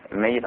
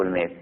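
First: "mayyit", the y doubled. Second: "mayt", the y left single. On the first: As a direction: say "mayyit" in two syllables. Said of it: "البعض يلفظها على الميت". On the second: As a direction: say "mayt" as one syllable. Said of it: "والبعض يلفظها الميت". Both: Shown as a demonstration.

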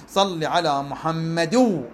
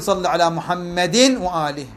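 First: Tanween of "محمد" melted into a long nasal "و"; nun merged into waw. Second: "محمد" ending in an audible -in before "وآله"; tanween pronounced clearly. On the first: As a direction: slowly run "محمد" into "و" with no n sound. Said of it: "شو أقول؟". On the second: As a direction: sound the n of "محمد", unmerged. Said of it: "ما أقول". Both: Shown as a demonstration.

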